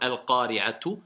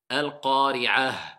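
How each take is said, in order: First: The word ends with a t and a vowel. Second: The word ends with an h sound. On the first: The reading continues without stopping. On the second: The reader stops on this word.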